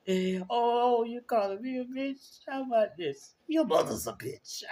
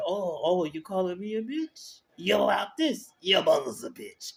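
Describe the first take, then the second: First: Put-on much higher, sassy New York accent retort; Natalia impression. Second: Put-on higher, sassy New York accent comeback; Natalia impression. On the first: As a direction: copy the friend's spot-on New York voice, pitched way up. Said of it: "she sound just like her". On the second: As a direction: fire back in a New York accent, voice up high. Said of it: "'cause I can't do it right".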